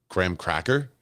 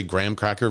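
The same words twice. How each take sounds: First: "graham cracker" with the weight on cracker; stress on CRACKER. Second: "graham cracker" with the weight on graham; stress on GRAHAM. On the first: Streamer comparing how people say it, CRACKER stressed in "graham cracker". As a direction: lean on cracker, rising at the end. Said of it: "emphasize the word cracker". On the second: Streamer comparing how people say it, GRAHAM stressed in "graham cracker". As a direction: punch graham, let cracker follow lightly. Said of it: "When you emphasize the word graham". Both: Shown as a demonstration.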